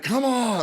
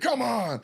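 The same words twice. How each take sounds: First: High, coaxing come on; urging. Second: Urging. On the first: Writer coaxes Leslie from the back in a high call. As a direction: pull her along with it. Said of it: "I remember being like". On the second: Writer calls to Leslie from the back, high and urgent. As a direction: call it from backstage. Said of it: "I said". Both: Retold or imitated.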